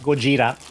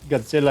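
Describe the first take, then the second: First: The name is said with a j sound and r. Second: The name is said with a d-z sound and l. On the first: This is the original Japanese version of the name. "in Japan, Godzilla is pronounced Gojira" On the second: This is the American version of the name. "how America pronounces it"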